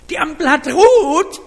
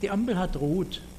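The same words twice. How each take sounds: First: It is said in a sharp, reproachful tone. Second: It is said in a calm, neutral tone. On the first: The driver was not paying attention again. "dann weiß ich, oh, jetzt habe ich wieder geschlafen, jetzt habe ich nicht aufgepasst" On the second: This is just a neutral remark about the light.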